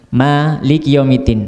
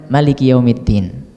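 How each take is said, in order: First: The vowel after the m is long. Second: The vowel after the m is short. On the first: "habis mim ada alif" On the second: "habis mim langsung langsung lam, ya, enggak pakai mat"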